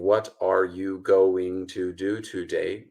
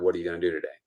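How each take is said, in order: First: Every word is pronounced fully and separately. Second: The words are reduced and run together. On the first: The speaker calls it wrong. "I'm not saying, ... No native speaker would talk like that" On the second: The speaker calls it right. "but rather, ... those kinds of reductions"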